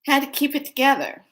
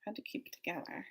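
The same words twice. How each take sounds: First: "had to keep it together" said much higher with a hit on "had"; holding it together. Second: "Had to keep it together" whispered fast and very soft. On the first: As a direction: pitch "had to keep it together" high, leaning on "had". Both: Shown as a demonstration. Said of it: "gonna show you how I".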